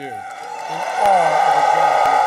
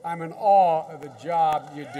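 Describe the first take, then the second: First: Loud, slow and deliberate; booming heartfelt repeat; emphatic repeat. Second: Said in the usual way. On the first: Real, not acted. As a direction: lean hard on every word, slowly.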